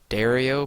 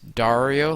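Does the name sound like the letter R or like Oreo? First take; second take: Oreo; letter R. First: Its vowels sound like the word Oreo. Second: Its first part sounds like the letter R. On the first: "put the word Oreo" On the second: "like R, put A A R"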